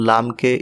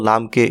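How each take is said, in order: Both takes have the same delivery.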